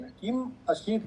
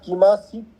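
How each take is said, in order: First: It is split with a break after kim. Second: It is said as one joined word. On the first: The speaker calls it right. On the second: The speaker calls it wrong.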